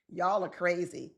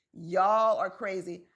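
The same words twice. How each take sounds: First: Said in the usual way. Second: "Y'all are crazy" said slowly, stressing y'all; slow emphatic repeat. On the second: Shown as a demonstration. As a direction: spell it out slowly to the audience.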